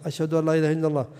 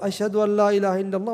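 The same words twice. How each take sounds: First: The phrase is said in a low, quiet voice. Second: The phrase is said in a raised, loud voice. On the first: "يخفض صوته يقول" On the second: "ثم يعود"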